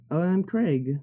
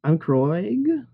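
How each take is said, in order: First: Said in the usual way. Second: "Kroig" with an "oy" vowel, puzzled rise; Kroig misread. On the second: Real, not acted. Misreads the name Craig.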